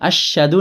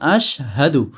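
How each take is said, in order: First: The sh and h sounds run together. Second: A brief break separates sh from h. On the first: The speaker calls it wrong. "আশহাদু না" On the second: The speaker calls it right. "হালকা কিছুক্ষণ অল্প থেমে তারপরে উচ্চারণ করলে"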